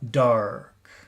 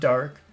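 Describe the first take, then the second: First: The word is said with strong, lively emphasis. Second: The word is said flatly, without emphasis. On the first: The speaker calls it right. "it's a good focus word" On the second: The speaker calls it wrong. "Not just dark"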